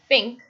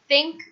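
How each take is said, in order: First: It begins with an f sound. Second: It begins with a th sound.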